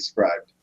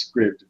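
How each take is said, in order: First: It ends in a 'bd' sound, like 'scribed'. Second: It ends in a 'pt' sound, like 'script'. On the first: This is how it is meant to be said. "it's supposed to be scribed" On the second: This is how people probably say it. "it probably is script"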